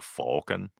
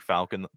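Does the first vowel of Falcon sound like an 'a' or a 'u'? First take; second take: u; a. First: The first vowel sounds like a 'u'. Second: The first vowel sounds like a plain 'a'. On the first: This is the odd way the name was said once. "Millennium Falcon is spelled with a U" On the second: This is the usual way the name is said. "the rest of it's like Falcon"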